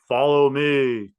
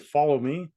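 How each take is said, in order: First: It is said in a marked, dramatic way. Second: It is said in a simple, plain way. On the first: "Was it like" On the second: "just as simple as me saying the words right here and now"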